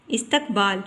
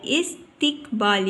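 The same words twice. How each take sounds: First: इस्तकबाल with an a after the t; wrong pronunciation. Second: इस्तिकबाल with a short i after t; correct pronunciation. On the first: Teacher shows the wrong reading, इस्तकबाल with tak in the middle. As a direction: misread इस्तकबाल as is-tak-baal. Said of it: "ये गलत तलफ़ुज़ है". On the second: Teacher gives the right reading, इस्तिकबाल with tik in the middle. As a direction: say इस्तिकबाल as is-tik-baal, in syllables. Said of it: "सही तलफ़ुज़ है". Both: Shown as a demonstration.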